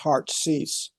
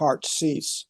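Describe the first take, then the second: First: It is said quickly with the words run together. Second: The same.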